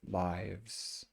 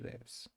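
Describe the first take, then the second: First: The vowel is a long 'eye' sound. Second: The vowel is a short 'i' sound. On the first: It is the plural noun of life. "because it's a life, then you say lives" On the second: It is the verb meaning to reside. "So it's a short I sound"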